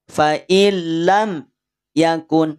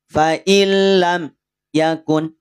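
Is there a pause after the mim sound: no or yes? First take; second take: yes; yes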